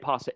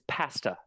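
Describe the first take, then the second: First: It is said in an Italian-style pronunciation. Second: It is said in an English-style pronunciation. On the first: The speaker calls it right. "They will not say pasta" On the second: The speaker calls it wrong. "It's pasta. They know it's wrong"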